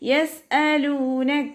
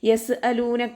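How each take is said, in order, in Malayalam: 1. 's' ന് ശേഷമുള്ള ഗ്ലോട്ടൽ ക്യാച്ച് വ്യക്തമാണ്. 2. 's' ന് ശേഷമുള്ള ഗ്ലോട്ടൽ ക്യാച്ച് ഇല്ല. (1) "ഹംസയെ വ്യക്തമായിട്ട് ഉച്ചരിക്കുക" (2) "നോതരുത്"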